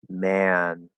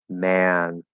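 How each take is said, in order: Both takes have the same delivery.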